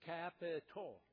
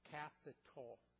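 First: The word is said louder, with heavy emphasis. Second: The word is said at ordinary volume.

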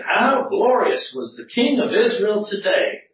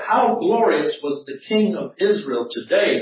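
First: It is said in a sarcastic, mocking tone. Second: It is read in a plain, neutral tone.

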